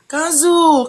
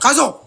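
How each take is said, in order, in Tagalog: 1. Tinawag ang pangalan sa malambot at pambabaeng boses. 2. Tinawag ang pangalan sa matatag at nag-uutos na boses.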